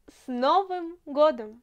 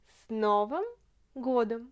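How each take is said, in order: First: Said in the usual way. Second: Word by word. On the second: Shown as a demonstration. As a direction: break С Новым годом into separate words. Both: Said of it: "Новый, ça veut dire".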